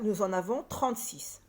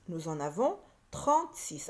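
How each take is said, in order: First: Said in the usual way. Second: Lower, with a pause before trente-six; emphatic repeat. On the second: Shown as a demonstration. Teacher repeating the total for pupils, trente-six spaced out. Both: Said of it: "et au total".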